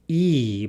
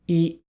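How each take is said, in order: First: The vowel is said with a lower pitch. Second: The vowel is said with a higher pitch. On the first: The speaker calls it wrong. "not E" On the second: The speaker calls it right. "but I"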